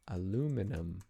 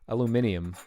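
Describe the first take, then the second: First: The word has four syllables, ending in -num. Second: The word has five syllables, ending in -ium. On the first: This is the North American way of saying it. The speaker calls it wrong. "In Canada, we just say aluminum" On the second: This is the British way of saying it. The speaker calls it right. "in England, they call it aluminium"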